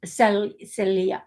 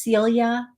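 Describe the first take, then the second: First: "Celia" with short first vowel, SELL-ya; corrected pronunciation. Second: "Celia" with a long ee, SEEL-ya; first-try pronunciation. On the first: Copying the caller's correction, "Celia" said slowly as SELL-ya. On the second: Asking caller the daughter's name, "Celia" said SEEL-ya. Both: Shown as a demonstration. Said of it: "I'm not good with accents or dialects".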